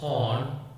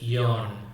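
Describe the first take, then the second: First: The word begins directly with a vowel. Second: The word begins with a 'y' sound. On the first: The speaker calls it right. "must be pronounced on" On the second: The speaker calls it wrong. "add a consonant in front, especially the consonant ya"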